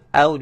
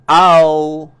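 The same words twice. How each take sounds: First: The vowel is said with rounded, pouted lips. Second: The vowel is said without rounded lips. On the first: The speaker calls it right. "bibir kita uh, muncung" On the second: The speaker calls it wrong. "bukan au. Jangan au"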